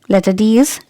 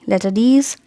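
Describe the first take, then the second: The two takes are said the same way.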